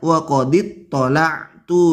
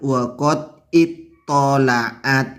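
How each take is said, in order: First: The last word ends with the syllable -tu. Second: The last word ends with the syllable -at. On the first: The speaker did the looking. The speaker calls it right. "yang betul" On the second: Someone else did the looking. The speaker calls it wrong.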